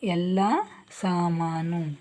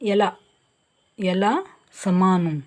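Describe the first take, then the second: First: The first vowel of the second word is long. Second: The first vowel of the second word is short. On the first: The speaker calls it right. "ಇದು ಸ ಅಲ್ಲ, ಸಾಮಾನು" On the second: The speaker calls it wrong. "ಏನು ತಪ್ಪಾಗಿದೆ ಇಲ್ಲಿ"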